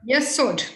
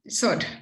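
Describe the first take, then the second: First: The first syllable's vowel is clearly sounded. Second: The first syllable's vowel is left out. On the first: The speaker calls it right. "So there you really have to say yeah" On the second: The speaker calls it wrong. "You can't say Sod"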